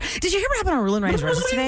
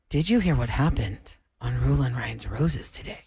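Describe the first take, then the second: First: The sentence is spoken at a fast pace. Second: The sentence is spoken at a slow pace. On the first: "Can I say it faster?" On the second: "Try it slow. Slower"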